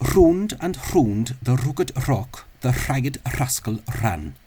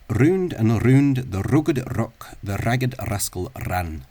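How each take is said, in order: First: The r sounds are trilled without voice. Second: The r sounds are trilled with full voice. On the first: "They're voiceless or" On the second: "the Rolls trilled"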